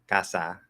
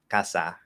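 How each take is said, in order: The two takes are said the same way.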